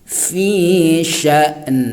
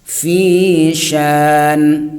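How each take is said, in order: First: The vowel is cut off by a glottal stop. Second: The vowel is lengthened with no glottal stop. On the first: The speaker calls it right. "sya ditekan ke hamzah baru nanti ke nun sukun" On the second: The speaker calls it wrong. "memanjangkan sya kemudian waqaf pada nun yang sukun ... itu adalah kekeliruan"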